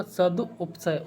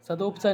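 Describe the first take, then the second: First: "सदुपसय" very slow, split सदु, उपसय; slow corrected form. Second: "सदुपसय" said as one run; wrong form. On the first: Teacher working out the word, slow syllables. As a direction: draw "सदुपसय" out in parts. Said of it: "नहीं होगा". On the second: Teacher quoting the mistake, run-together word. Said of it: "सदुपसय नहीं होगा". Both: Shown as a demonstration.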